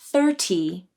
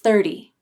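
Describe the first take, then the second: First: The middle T is a full, crisp T sound. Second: The middle T is a quick, light D-like flap. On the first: The speaker calls it wrong. "If you use a true T sound like this" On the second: The speaker calls it right. "To make the flap, the tongue tip quickly touches the roof of the mouth"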